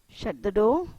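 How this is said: It is said as a polite request.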